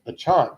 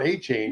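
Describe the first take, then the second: First: The surname does not end like the word chain. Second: The surname ends sounding like the word chain. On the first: The speaker calls it right. "the correct pronunciation of his name" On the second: The speaker calls it wrong. "I'm going to say his name wrong"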